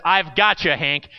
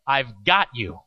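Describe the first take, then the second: First: Lightly raised camp leader voice; retold holler. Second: Low-pitched, unhurried promise, not hollered; quiet reassurance. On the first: Camp leader assures jumper Hank, lightly called out. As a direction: call it to the climber, only half hollered. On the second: Retold or imitated. Camp leader answers looking right at scared boy, quietly reassuring. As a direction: imitate a leader steadying one scared kid. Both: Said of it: "instead of hollering to Hank".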